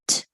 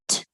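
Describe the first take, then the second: No difference in how they are said.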